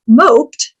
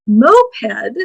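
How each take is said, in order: First: "moped" said slowly as mohpt, one syllable. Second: "moped" said slowly as MOH-ped; moped as two syllables. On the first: Teacher showing the word for being depressed, slow "moped" as mohpt. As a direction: say "moped" like sulked. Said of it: "Pronounce moped". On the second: Teacher showing the word for the bike, slow "moped" as MOH-ped. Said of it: "But pronounced moped". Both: Shown as a demonstration.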